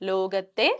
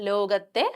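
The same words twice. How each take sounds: Both takes have the same delivery.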